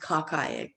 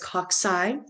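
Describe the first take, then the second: First: The second syllable sounds like 'keye'. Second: The second syllable does not sound like 'keye'. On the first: The speaker calls it wrong. "don't pronounce it cockeye" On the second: The speaker calls it right. "It's cocci"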